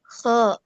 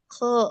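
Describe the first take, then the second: First: The sound is open and clearly heard. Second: The sound is muffled and less open. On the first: The speaker calls it right. "rongga mulutnya tetap dibuka ya Umi ya. Jadi kalau mis saya jelas terdengar kho-nya" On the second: The speaker calls it wrong. "kalau misalnya mulutnya kurang dibuka"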